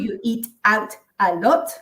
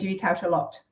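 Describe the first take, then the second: First: Each word is pronounced separately and fully. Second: The words run together with weakened sounds. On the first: The speaker calls it wrong. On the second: The speaker calls it right.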